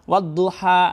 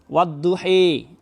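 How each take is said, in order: First: The final vowel is an open 'a' sound. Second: The final vowel is fronted toward an 'e'.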